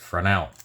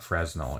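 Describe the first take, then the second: First: The middle s is silent. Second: The middle s is sounded like a z. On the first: The speaker calls it right. "They don't pronounce the Z" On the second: The speaker calls it wrong. "It is not Fresnel"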